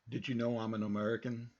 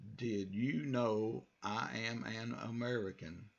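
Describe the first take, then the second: First: It is said fast, words running together. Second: It is said slowly, each word separate.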